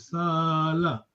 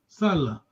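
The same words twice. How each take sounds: First: The vowel is said long. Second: The vowel is said short. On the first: It means to stay behind and work. "another Salah is long vowel" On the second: It means to work. "Salah means to work"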